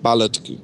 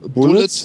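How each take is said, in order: First: The first vowel sounds like the 'a' in 'ballet'. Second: The first vowel sounds like the vowel in 'put'. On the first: The speaker calls it wrong. "wird nicht Ballet ausgesprochen" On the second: The speaker calls it right. "Bullets wird nicht Ballet ausgesprochen"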